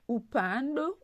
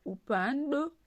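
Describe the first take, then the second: No difference in how they are said.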